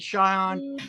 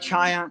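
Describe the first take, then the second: First: The name is said the Persian way. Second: The name is said the non-Persian way. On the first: "Persians pronounce it Cheyenne" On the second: "Other people say Cheyenne"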